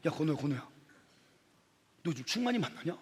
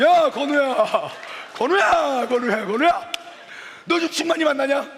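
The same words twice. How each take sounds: First: Low, softly spoken approach to a friend; hushed, lower-pitched acted gossip; confiding gossip. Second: Loud, high, booming call from a big guy; hammed-up big-bodied shout; huge friend. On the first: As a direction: bring up gossip quietly. Another friend sidles up with gossip. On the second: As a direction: bellow at your friend like a hulking giant. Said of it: "이만한 덩치로".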